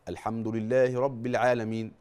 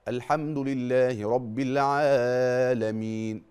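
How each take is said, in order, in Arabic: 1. يُقصَر حرف المد أقل من حركتين. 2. يُمَدّ حرف المد أكثر من حركتين. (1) "التقصير في المد يعد لحنا جليا" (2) "كده زود المد الطبيعي عن حدوده، زود عن حركتين"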